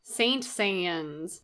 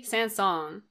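First: Saint-Saëns read as English, saint-say-ens; Saint-Saëns with an English "saint" and long ay; anglicized pronunciation. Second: Saint-Saëns said French-style, roughly san-sonz; Saint-Saëns, second half rhyming roughly with "song"; French pronunciation. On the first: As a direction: say Saint-Saëns as it is spelt, softly. Mock anglicized take on the name. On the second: Trying out the composer's name. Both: Shown as a demonstration.

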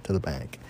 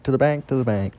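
First: Much softer, lower trailing echo; quiet echo. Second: Punchy, higher chant; emphatic chant. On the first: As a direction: let it fade away like an echo. Fading echo of the chant. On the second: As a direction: chant it with confidence. Chanting a confident call. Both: Acted.

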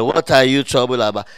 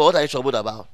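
First: Louder, lower call to the congregation; louder prompting. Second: Said in the usual way. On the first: Shown as a demonstration. Preacher who can't hear the congregation's answer, prompting louder. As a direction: push the question out louder. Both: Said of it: "Oh, I can't hear".

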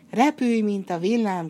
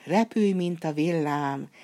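First: Shouted spell. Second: A slow, ringing magic call, words drawn out; slow called spell. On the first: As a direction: spell shouted out loud and high. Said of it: "kiáltotta". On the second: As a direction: cast the spell steadily, calling it out slowly. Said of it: "így kiáltott". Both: Acted.

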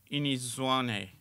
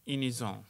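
First: "ionizants" garbled as "inizwane", the French ending mangled; botched French. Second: "ionisants" as French "ee-oh-nee-zahn" with a nasal ending; corrected French. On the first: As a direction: say "ionizants" like "ee-neez-wah-neh", the French nasal ending lost. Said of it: "you were doing really well until Inizwane". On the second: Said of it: "No, Inis-, that's Zulu". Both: Acted.

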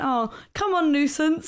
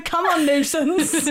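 First: Higher, lightly exasperated coaxing; lightly retold urging, pitched up; playful nudge to a stubborn companion; mock coaxing. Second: Drawn-out, high call through laughter; slow, higher mock urging. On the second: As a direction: laughingly replay an embarrassing call. Replays how it looked to others.

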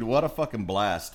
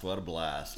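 First: Said in the usual way. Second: Quiet echo. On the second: Real, not acted.

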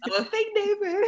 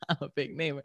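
First: Laughing mishearing. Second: Laughing it back lower and softer; laughing repeat. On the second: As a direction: echo the joke through a chuckle. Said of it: "repeats friend's joke". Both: Real, not acted.

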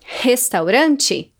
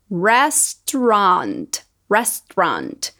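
First: Restaurante said slowly the Brazilian way; Portuguese pronunciation. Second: Restaurant with an English retroflex R, slow; English pronunciation. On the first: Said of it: "Alguns exemplos que são parecidos em português". (Restaurante pronunciado em português) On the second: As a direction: say restaurant as ɹɛstɹɑnt. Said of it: "pra gente notar essa diferença". (restaurant com R inglês) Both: Shown as a demonstration.

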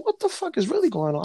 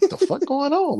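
First: High incredulous. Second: Startled. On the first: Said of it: "So I said". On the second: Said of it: "I'm like". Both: Retold or imitated.

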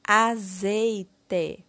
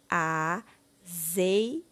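First: Said in the usual way. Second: AZEITE broken into a, zei, te with long gaps; syllable by syllable. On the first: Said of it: "Formando a palavra". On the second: Shown as a demonstration. Teacher giving the word for the bottle picture, syllable by syllable. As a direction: sound out AZEITE one syllable at a time. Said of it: "Iremos colocar a palavra".

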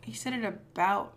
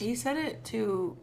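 First: "about" set apart with careful emphasis; stress on "about". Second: "to" held long to set it apart; stress on "to". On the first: Co-host sorting out the confession, stressing "about". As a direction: lean on "about" to mark the difference. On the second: Co-host correcting who he said it to, stressing "to". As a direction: lean on "to", drawing it out. Correcting which preposition was said. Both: Shown as a demonstration.

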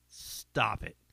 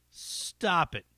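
First: Whispered stop it. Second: Said in the usual way. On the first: Pretend. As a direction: breathe it out unvoiced. Whispered repeat.

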